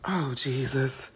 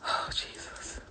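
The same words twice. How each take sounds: First: Quiet dread. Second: Whispering in disgust; whispered dread. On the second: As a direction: breathe it out in horror. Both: Real, not acted.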